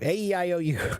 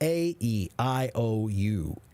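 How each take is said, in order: First: The vowels run together without pauses between. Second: Each vowel is said apart with pauses between. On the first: The speaker calls it wrong. "Many people, when they practice their vowels, they say" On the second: The speaker calls it right. "And separate them"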